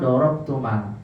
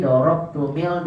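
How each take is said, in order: First: DOROBTUMAL with a wrong a before the l; wrong fathah. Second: DOROBTUMIL with a wrong i before the l; wrong kasrah. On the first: Teacher warning against swapping vowels, DOROBTUMAL with an a. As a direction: say DOROBTUMAL low, ending in mal. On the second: Teacher warning against swapping vowels, DOROBTUMIL with an i. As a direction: say DOROBTUMIL, ending in mil. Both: Shown as a demonstration. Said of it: "Gak boleh diganti jadi".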